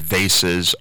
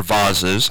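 First: Vases said as VAY-siz; American pronunciation. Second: Vases said as VAH-ziz; alternative pronunciation. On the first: Radio host listing flower stock, vases pronounced VAY-siz. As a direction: say vases to rhyme with faces. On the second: Radio host offering the other way, vases pronounced VAH-ziz. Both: Real, not acted. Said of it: "however you say it".

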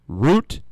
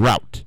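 First: Route said as "root"; long oo in Route; "root" pronunciation. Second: Route rhyming with out; "rout" pronunciation. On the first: Host contrasting the two versions, Route as "root". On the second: Host contrasting the two versions, route as "rout". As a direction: say route with an ow vowel. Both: Shown as a demonstration. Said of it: "but really it's route".

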